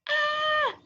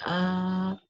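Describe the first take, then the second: First: The shout is at a high pitch. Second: The shout is at a low pitch. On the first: A small baby is shouting. "the baby shouted like ah. ... Because it has high pitch" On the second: A large adult is shouting. "Like the daddy bear, he shout like ah"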